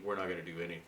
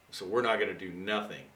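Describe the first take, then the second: First: The correct form "do anything" said calmly as the fix; corrected grammar version. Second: The double negative "do nothing" said as ordinary speech; wrong grammar version. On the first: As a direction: say "we're not gonna do anything" a bit softer, with "anything" in place of "nothing". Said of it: "It should be". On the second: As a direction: say "we're not gonna do nothing" casually, with the double negative "nothing". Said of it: "Now notice that that's bad grammar". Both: Shown as a demonstration.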